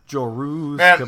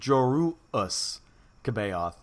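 First: The first name is said smoothly without a break. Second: The first name has a glottal stop break inside. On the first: "That's what I've been doing" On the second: "Maybe it needs a little glottal stop in there"

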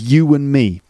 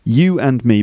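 First: A w sound links 'you' into 'and'. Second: The words are separate, with no linking w sound.

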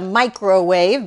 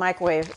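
First: The word is said with all three syllables. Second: The word is squeezed into two syllables. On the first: "It's a microwave, but I don't say it that way" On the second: "It turns into 2 syllables"

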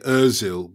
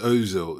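First: The first vowel is a rounded front ö. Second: The first vowel is a plain o. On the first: "I say Ozil ... O with two dots above it is for us" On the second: "Miguel says Ozil"

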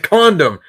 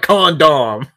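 First: The second syllable has a reduced, weak vowel. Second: The second syllable has a full, clear vowel. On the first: The speaker calls it right. "you have 1.5 syllables in that word" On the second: The speaker calls it wrong. "we have 2"

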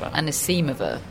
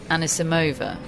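First: The name is pronounced the Russian way. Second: The name is pronounced the American way. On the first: This is the original native pronunciation. "which is the Russian way" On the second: This is how the player wants her name said. "She said she wants her name to be pronounced the American way"

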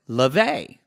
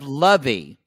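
First: The name is said with a French pronunciation. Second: The name is said without the French pronunciation. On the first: The speaker calls it right. "that's like a French spelling, right? Or a pronunciation" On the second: The speaker calls it wrong. "every single teacher went, Kay Lovey"

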